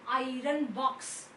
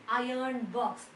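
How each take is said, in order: No difference in how they are said.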